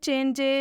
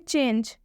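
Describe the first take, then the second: First: The word ends with an added short e vowel. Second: The word ends on the j sound, no vowel. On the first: The speaker calls it wrong. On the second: The speaker calls it right.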